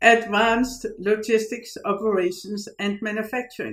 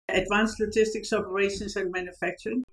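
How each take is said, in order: First: It is said slowly. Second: It is said at normal speed.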